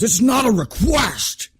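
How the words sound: It is said in a guttural, angry growl.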